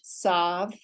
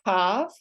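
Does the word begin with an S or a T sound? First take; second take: S; T. First: It begins with a soft S sound. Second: It begins with a hard T sound. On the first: "the soft S" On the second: "the hard T"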